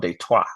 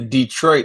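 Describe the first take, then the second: First: It is said with a French pronunciation. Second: It is said with an ordinary English pronunciation.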